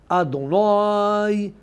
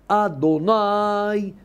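Both takes have the same delivery.

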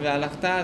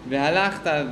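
First: The stress is on the final syllable. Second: The stress is on the next-to-last syllable. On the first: It refers to the future. "והלכת זה עתיד" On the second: It refers to the past. "והלכת זה עבר"

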